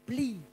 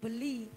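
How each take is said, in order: First: The b runs straight into the l. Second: A vowel is heard between the b and l. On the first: The speaker calls it right. "tapi beli. B-L-I" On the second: The speaker calls it wrong. "mboten beli"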